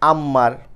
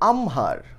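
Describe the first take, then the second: First: A double m is said with no h. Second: The m is followed by an h sound. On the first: The speaker calls it wrong. "অনেকে আমরা বলি হচ্ছে আম্মার... না, এরকম একটা উচ্চারণও হবে না" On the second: The speaker calls it right. "এই শব্দটার উচ্চারণ আমহার"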